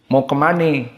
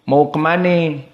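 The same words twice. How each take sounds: First: It is said in a Betawi accent. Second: The same.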